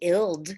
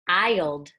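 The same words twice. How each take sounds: First: The vowel is short, as in 'ill'. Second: The vowel is long, as in 'eye'. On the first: The speaker calls it wrong. "it doesn't say ild" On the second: The speaker calls it right. "It says ild"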